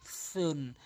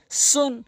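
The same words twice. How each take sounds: First: সুন begun like th in "thin"; much softer lispy সুন, tongue on front teeth; soft dental th. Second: সুন with a sharp s; high-pitched সুন, s at tooth edges; clear sin. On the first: Teacher contrasts two letters, soft th in সুন. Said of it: "জিহ্বার আগা সামনে দাঁতের আগা". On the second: Teacher contrasts two letters, sharp s in সুন. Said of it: "সিন হচ্ছে জিহ্বার আগা". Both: Shown as a demonstration.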